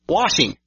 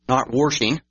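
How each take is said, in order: First: The word has no added R sound. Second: The word has an added R sound. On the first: The speaker calls it right. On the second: The speaker calls it wrong.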